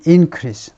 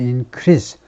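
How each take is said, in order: First: The stress is on the first syllable. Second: The stress is on the second syllable. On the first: It is used as a noun. "명사는 increase, 앞에다 두고" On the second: It is used as a verb. "동사는 increase, 두 번째 실러블에 액센트를 두고"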